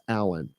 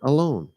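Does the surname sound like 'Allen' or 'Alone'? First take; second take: Allen; Alone. First: The name is said like English 'Allen'. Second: The name is said like English 'alone'. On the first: This is how it is said in America. "properly pronounced Allen for all intents and purposes in America" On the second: This is how it is said in Israel. "In Israel, I expect to be called [name]"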